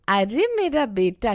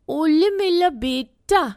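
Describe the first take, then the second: First: The first word is said with a clear r sound. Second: The first word is lisped with an l sound. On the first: The speaker calls it right. "की जगह" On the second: The speaker calls it wrong. "कई लोग छोटे बच्चों से तुतला के बोलते हैं"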